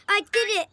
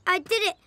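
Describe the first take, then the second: The two takes are said the same way.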